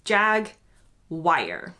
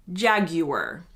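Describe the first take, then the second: First: "jag wire" slowly in two parts, the second like "wire"; the American "jag wire", drawn out. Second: "jaguar" in three syllables, JAG-yoo-ar; "jaguar" as you hear it in the UK; British jaguar. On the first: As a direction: say "jag wire", American style, end rhymes with fire. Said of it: "most Americans do say this word like". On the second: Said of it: "In the U K, you will mostly hear". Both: Shown as a demonstration.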